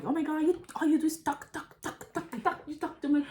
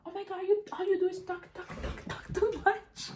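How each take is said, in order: First: High, whiny mimic of the sister; mock her nagging in a high put-on voice; high nagging imitation of the sister. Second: Very high, whiny mimic of the sister; shrill-pitched mock of the sister's complaint. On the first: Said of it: "be like". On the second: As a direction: squeal her nagging like a brat. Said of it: "she's like".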